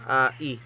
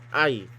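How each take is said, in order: First: The two vowels are said as separate sounds. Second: The two vowels glide together into one sound. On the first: The speaker calls it wrong. "hindi pronounce mo ganito" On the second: The speaker calls it right. "Diphthong yan. So, I, as in aisles"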